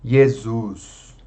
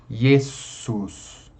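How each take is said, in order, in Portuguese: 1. O S do meio é sonoro, como um Z. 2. O S do meio é surdo, como um chiado. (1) "A nossa tendência é vozear esse S, falar Jesus, como se fosse um Z" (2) "vamos tentar pronunciar desvozeadamente"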